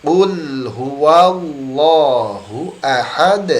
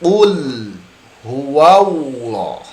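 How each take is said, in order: First: 'Qul huwallahu ahad' very slow, drawn out, reciting; correct recitation. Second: 'qul huwallah' slowed, with an added u sound, lips pushed forward; wrong rounded Allah. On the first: Teacher reciting the correct verse slowly for the class. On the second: Teacher imitating students' common wrong pronunciation, slowly. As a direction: stretch 'huwallah' with a rounded waw sound. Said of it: "dengan cara". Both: Shown as a demonstration.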